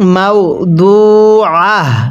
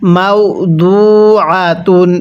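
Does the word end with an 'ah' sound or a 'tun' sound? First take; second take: ah; tun. First: The word ends with an 'ah' sound. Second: The word ends with a 'tun' sound. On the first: The reading stops at this word. "ওয়াকফ করলে কিভাবে পড়ব মাও দু আহ তাটাকে হা বানিয়ে পড়ব" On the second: The reading continues without stopping. "তা দুই পেশ তুন"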